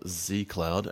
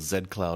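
First: Z is said the North American way. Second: Z is said the non-American way.

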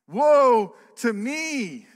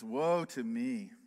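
First: It is cried out with strong anguish. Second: It is read flatly, without strong emotion. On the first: The speaker calls it right. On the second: The speaker calls it wrong.

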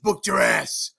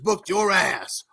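First: The words 'your ass' blend to sound like 'giraffes'. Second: The words 'your ass' are said separately. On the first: The speaker calls it right. "so it's like giraffes... yeah, like that" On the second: The speaker calls it wrong. "he couldn't get how to do it"

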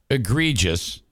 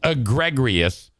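First: The word is said without an extra R sound. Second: The word is said with an extra R sound. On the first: The speaker calls it right. "taking that word, egregious" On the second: The speaker calls it wrong. "adding an R as egregious, is one of the dumbest things I've ever heard"

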